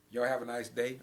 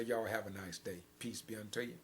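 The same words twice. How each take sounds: First: Said in the usual way. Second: Gentle sign-off. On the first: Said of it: "I'm gonna let them close it out". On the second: Shown as a demonstration. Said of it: "And I'm gonna say".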